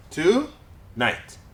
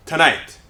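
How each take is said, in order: First: Tonight split into two beats, tu - night; syllable by syllable. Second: Said in the usual way. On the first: Shown as a demonstration. Teacher breaks the word up for students, Tonight in separate syllables. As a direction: pause between the syllables of Tonight. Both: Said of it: "break them up into syllables".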